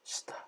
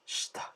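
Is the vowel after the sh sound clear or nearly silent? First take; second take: nearly silent; nearly silent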